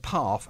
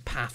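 First: The word is said in a London accent. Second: The word is said in a non-London local accent. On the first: This is how someone from London says it. The speaker calls it right. "I've still got the London accent there" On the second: This is how people in the local area say it. The speaker calls it wrong. "they say path and bath"

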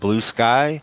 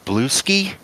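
First: The name ends with the vowel of 'sky'. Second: The name ends with the vowel of 'ski'. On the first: The speaker calls it wrong. "it's not blue sky" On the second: The speaker calls it right. "it's blue ski"

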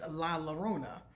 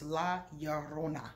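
First: The double L is sounded like an English L. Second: The double L is sounded like an English Y. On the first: The speaker calls it wrong. "my American accent is La Llorona" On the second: The speaker calls it right. "the LL is ya. So it's La Llorona"

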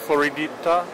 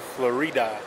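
First: The name is said with an extra syllable, Floridita. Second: The name is said as three syllables, Florida. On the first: The speaker calls it wrong. "my pronunciation is bad" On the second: The speaker calls it right. "I've been saying the name of the mall wrong. It's like Florida"

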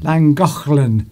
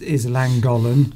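First: The name is said with a Welsh pronunciation. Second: The name is said with an English pronunciation.

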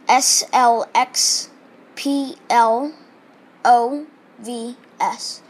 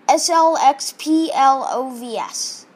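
First: The letters are spelled slowly. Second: The letters are spelled quickly.

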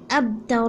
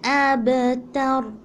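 First: The b sound has no echoing bounce. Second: The b sound has an echoing bounce. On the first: The speaker calls it wrong. "You don't have to say it abtar" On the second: The speaker calls it right. "ba is from the huruf qalqala"

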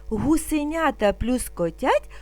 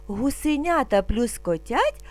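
Both takes have the same delivery.

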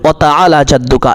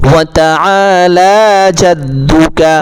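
First: The vowels in ta'ala are said short. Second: The vowels in ta'ala are drawn out long. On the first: The speaker calls it wrong. "মা বোনেরা এখানে টান দেন না ... এভাবে বলে ভুল হয়ে যাবে" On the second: The speaker calls it right. "আইনেও টান আছে, আবার লামের মধ্যে বা কালিফ টান আছে"

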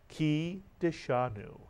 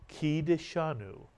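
The two takes are said the same way.

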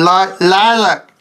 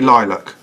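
First: It is said in an American accent. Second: It is said in a British accent. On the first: "Should we do an American impression?" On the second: "but it's actually lilac"

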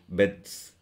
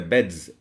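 First: The word ends with a voiceless s sound. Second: The word ends with a voiced z sound. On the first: The speaker calls it wrong. "than to say beds" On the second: The speaker calls it right. "we have a voiced form of the morpheme here. It's beds. See, it's easier to say beds"

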